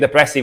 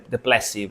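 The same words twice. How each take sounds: First: It is said with an R sound. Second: It is said with an L sound. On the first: "instead of saying depressive" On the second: "I say de- depressive sometimes"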